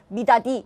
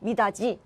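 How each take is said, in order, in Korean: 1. 마지막 음절은 d 소리로 시작합니다. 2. 마지막 음절은 j 소리로 시작합니다.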